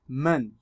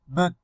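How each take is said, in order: First: The n resonates freely through the open nose. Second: The n sounds muffled with the nose pinched. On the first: "without blocking my nose" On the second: "blocking my nose"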